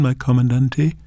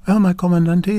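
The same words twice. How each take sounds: First: Shy greeting of "my comandante"; nervous "my comandante"; quavering. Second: "Well, my comandante" said with new confidence; steady, higher "my comandante"; confident. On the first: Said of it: "the voice quavered". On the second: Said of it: "She gathered confidence". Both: Acted.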